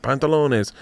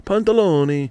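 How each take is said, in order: First: Put-on "Pantalones" in a playful Spanish accent, rolling and stretched; mock Spanish. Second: Put-on "pantaloni" in a playful Italian accent, pitched higher and sing-song; mock Italian. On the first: Comic showing Spanish and Italian sound alike, "Pantalones" in mock Spanish. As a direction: say "Pantalones" like a Spanish word for trousers. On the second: Comic showing Spanish and Italian sound alike, "pantaloni" in mock Italian. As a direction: say "pantaloni" like an Italian word, bouncing up. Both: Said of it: "a little bit like Italian and Spanish".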